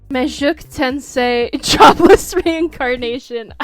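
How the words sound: The title is said with a French accent. "I don't know why I gave it a French accent"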